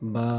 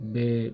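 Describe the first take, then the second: First: The letter name ends with an 'a' vowel. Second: The letter name ends with an 'e' vowel. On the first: The speaker calls it right. "আলিফ বা বা" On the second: The speaker calls it wrong. "আগে আমরা অনেকে পড়েছি বে আলিফ বে"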